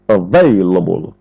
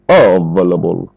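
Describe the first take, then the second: First: The stress falls on the second syllable, vail. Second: The stress falls on a syllable other than the second. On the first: The speaker calls it right. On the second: The speaker calls it wrong. "Il ne faut pas dire available"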